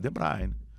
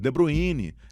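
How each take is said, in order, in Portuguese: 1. É pronunciado do jeito que o jogador fala. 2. É pronunciado com uma adaptação para o português brasileiro. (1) "mas não é, é De Bruyne" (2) "tem uns que abrasileiraram"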